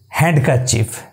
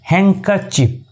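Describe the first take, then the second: First: A D sound is pronounced in the middle. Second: No D sound is pronounced in the middle. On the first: The speaker calls it wrong. "generally we pronounce these words as handkerchief, but it's totally wrong" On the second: The speaker calls it right. "the correct pronunciation of this word is handkerchief"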